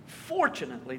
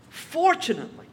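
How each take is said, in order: First: Dry sarcastic. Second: High, bright exclamation that falls away; mock cheerful. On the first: Preacher repeating the word low and deadpan for irony. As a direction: lower and softer, deadpan repeat. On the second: Preacher setting up a sarcastic point, high and mock-cheerful. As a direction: announce it like good news. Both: Shown as a demonstration.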